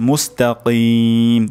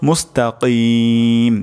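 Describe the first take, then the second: The two takes are said the same way.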